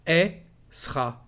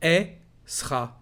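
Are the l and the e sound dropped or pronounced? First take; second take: dropped; dropped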